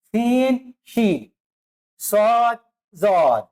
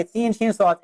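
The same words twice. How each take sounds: First: सीन, शीन, सॉद, जॉद each said alone with a clear pause after; letter by letter, stopping after each one; pause between letters. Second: सीन, शीन, सॉद rattled off in one breath with no gaps; सीन शीन सॉद blurred together quickly, the wrong way; run together. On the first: Teacher shows students how to pause between letters. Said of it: "फिर रुकना पड़ता है". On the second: Teacher shows students the wrong way, rushed. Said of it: "हम एक साथ ऐसे नहीं पढ़ेंगे". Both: Shown as a demonstration.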